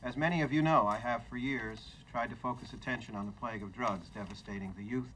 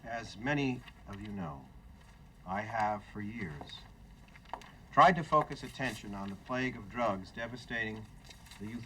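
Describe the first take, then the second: First: It is read at a quicker, brisker pace. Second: It is read at a slower, unhurried pace.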